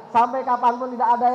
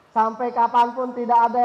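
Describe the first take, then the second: No difference in how they are said.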